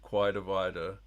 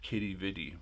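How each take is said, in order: First: It is pronounced like 'Quidavida'. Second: It is pronounced like 'Kitty Vitty'. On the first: A less common way of saying the name. "Some pronounce it" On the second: The most common way of saying the name. "Most, I think, pronounce it"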